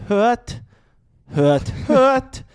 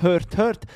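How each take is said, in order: First: Lautes, hohes Bühnendeutsch; höre, höre, steif und laut deklamiert. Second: Said in the usual way. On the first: Retold or imitated. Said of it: "Bühnendeutsch". (übertriebenes Bühnendeutsch) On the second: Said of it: "sie sagen nicht".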